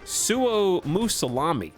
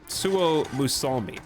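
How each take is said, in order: First: An extra vowel comes before the final 'mi'. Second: No vowel comes between 'l' and 'mi'. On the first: The speaker calls it wrong. "not Musalami" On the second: The speaker calls it right. "Suo Musalmi, not Musalami"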